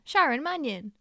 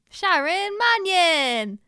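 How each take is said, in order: First: It is said in a plain presenter voice. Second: It is said like a wrestling announcer.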